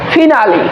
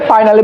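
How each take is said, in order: First: The first syllable has the vowel of 'fin'. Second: The first syllable has the vowel of 'fine'. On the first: The speaker calls it right. "এটা সঠিক উচ্চারণ হবে ফিনালি" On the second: The speaker calls it wrong. "But এটার রং উচ্চারণ হয়েছিল এতদিন"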